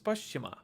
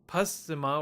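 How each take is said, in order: First: The middle consonant is a palatal 'sh' sound. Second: The middle consonant is not a 'sh' sound. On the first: The speaker calls it right. "it's actually pronounced as" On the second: The speaker calls it wrong. "you'll probably read this as"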